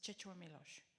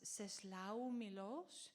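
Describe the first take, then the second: First: The name is said the native Polish way. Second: The name is said the familiar English-style way. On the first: The speaker calls it right. "a Polish guy told me that you actually pronounce it" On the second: The speaker calls it wrong. "that you must know as"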